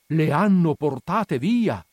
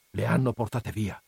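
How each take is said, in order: First: Louder, slow lament; dismayed outcry. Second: Said in the usual way. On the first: Acted. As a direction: cry the news to everyone. Repeated as an outcry.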